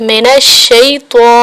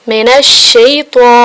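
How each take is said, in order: No difference in how they are said.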